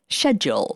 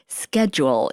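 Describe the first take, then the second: First: It is said with a British pronunciation. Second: It is said with an American pronunciation. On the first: The speaker keeps the accent learned before arriving. "instead of schedule" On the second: The speaker is fitting in with American classmates. "we had to learn how to start saying things like schedule"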